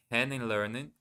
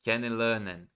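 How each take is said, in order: First: Kennenlernen with an English r in lernen; English-sounding German. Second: Said in the usual way. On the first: Real, not acted. Learner slips on the German, kennenlernen said with English sounds. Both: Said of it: "why did I say it in English".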